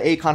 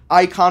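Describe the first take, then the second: First: The name begins with an 'ay' sound. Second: The name begins with an 'eye' sound. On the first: "however you, would like to pronounce it" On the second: "It's actually pronounced Icon"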